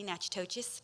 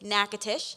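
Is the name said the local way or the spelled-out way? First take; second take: spelled-out; local. First: The name is sounded out as it is spelled. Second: The name is said in its shortened local form. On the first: The speaker calls it wrong. "pronouncing it incorrectly" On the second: The speaker calls it right. "but it is"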